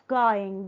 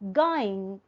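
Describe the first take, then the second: First: The final consonant is a full ng sound. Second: The final consonant is reduced to an n sound. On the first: "instead of going" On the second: "going instead of going"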